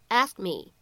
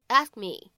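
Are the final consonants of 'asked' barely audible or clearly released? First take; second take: barely audible; barely audible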